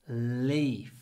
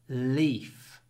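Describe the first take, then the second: First: The L sound at the start is long. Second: The same.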